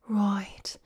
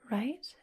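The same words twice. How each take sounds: First: The vowel in right sounds Australian. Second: The vowel in right sounds neutral. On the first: "They say right" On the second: "instead of right"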